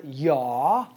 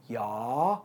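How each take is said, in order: First: "yaw" drawn out slowly. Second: "yaw" said lower and softer. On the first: Coach slowly models the first word. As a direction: stretch the instruction slowly. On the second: Coach models "yaw" for students to copy. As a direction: drop into a low quiet "yaw". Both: Shown as a demonstration. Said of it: "say the word yaw".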